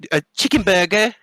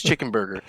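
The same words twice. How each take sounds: First: High British lilt on "chicken burger"; mock English accent. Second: Said in the usual way. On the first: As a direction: parody a British speaker, pitched up. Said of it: "they call it a".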